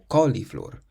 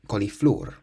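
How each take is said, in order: First: The stress falls before the last syllable. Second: The stress falls on the last syllable. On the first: The speaker calls it wrong. "So it's not cauliflower" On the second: The speaker calls it right. "So it's at the end because it ends in an R"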